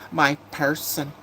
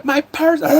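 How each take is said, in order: First: "My person" drawn out slowly; mocking quote. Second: "My person" squealed very high and loud; exaggerated mockery. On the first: Streamer quotes what new people say, slow mocking drawl. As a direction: stretch "My person" slowly, quoting it with mockery. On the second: Streamer ridicules a phrase she dislikes, high loud mockery.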